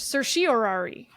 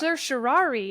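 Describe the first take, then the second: First: The word is said with five syllables. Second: The word is said with four syllables. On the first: "you can have that O in the middle" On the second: "question between four syllables and five"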